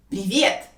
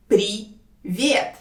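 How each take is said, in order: First: Said in the usual way. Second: Slow «При... вет» with a gap; syllable by syllable. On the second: Shown as a demonstration. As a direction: say «Привет» as two separate syllables. Teacher breaks word into syllables.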